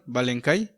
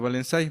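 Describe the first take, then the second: First: The c is said with a hard k sound. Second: The c is said with a soft s sound. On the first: This follows the written spelling. The speaker calls it wrong. "Que le llaman Valencay, o se escribe como Valencay" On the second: This follows the cedilla on the c. The speaker calls it right. "pero se pronuncia Valensay porque tiene una C cedilla"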